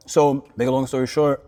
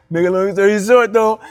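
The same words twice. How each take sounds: First: Said in the usual way. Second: Louder, laughing through the line; laughing retake. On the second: Real, not acted. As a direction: restart it with a laugh at yourself. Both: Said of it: "like I said that, like, a time".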